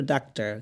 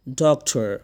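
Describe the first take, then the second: First: ডাক্তার with open a and soft dental t; everyday ডাক্তার, daak-taar; local Bengali doctor. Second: ডক্টর with rounded o and aspirated T; English-style doctor. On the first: Teacher quotes the local habit, open-a ডাক্তার. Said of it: "আমরা বলি ডাক্তার". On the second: Teacher corrects learners' doctor, rounded o, aspirated T. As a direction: say ডক্টর as dok-thor, not daktar. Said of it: "আমরা বলি ডাক্তার, কিন্তু ডাক্তার না". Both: Shown as a demonstration.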